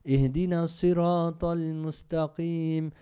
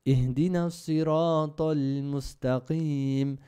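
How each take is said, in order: Both takes have the same delivery.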